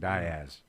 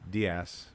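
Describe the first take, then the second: First: The name gets the local Arkansas pronunciation. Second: The name gets its usual standard pronunciation. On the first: "in Arkansas it's pronou- pronounced Diaz ... that fingernails on the chalkboard pronunciation" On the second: "which is Diaz, right?"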